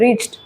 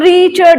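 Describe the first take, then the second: First: The final d is light and effortless. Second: The final d is pressed hard and loud. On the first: The speaker calls it right. "आप एकदम effortlessly बोले" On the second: The speaker calls it wrong. "पूरा एकदम उसको इतना जोर से बोलना है"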